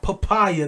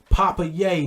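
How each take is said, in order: First: The final syllable is said as 'ya'. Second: The final syllable is said as 'ye'. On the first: The speaker calls it wrong. "not papaya" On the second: The speaker calls it right. "at Papa Ye"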